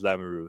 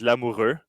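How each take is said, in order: First: The name is said with English sounds and R. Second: The name is said with French sounds and R. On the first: This is how most people say it. "normally everyone just says" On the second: This is the proper way to say it. "the way to say it in French"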